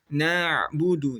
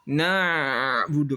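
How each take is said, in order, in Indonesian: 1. Bunyi ain panjangnya sedang. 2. Bunyi ain dipanjangkan terlalu lama. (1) "Jadi di pertengahan" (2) "tidak rokhawah na'budu kepanjangan"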